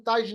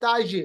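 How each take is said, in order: First: ताज with a dead ज; wrong pronunciation demo. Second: ताज with the ज bounced back; qalqalah demo. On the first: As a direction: cut ताज off without bounce. (बिना क़लक़ला के ग़लत ताज) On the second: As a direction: release the ज of ताज with an echo. (क़लक़ला के साथ सही ताज) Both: Shown as a demonstration. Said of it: "ताज नहीं बल्कि".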